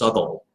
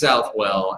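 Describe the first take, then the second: First: The name ends in an 'all' sound. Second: The name ends in a 'well' sound. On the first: This is the original British pronunciation. "it's actually pronounced Southall, according to the Brits" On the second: This is the local Southern pronunciation. "we're here in the South. So it's Southwell"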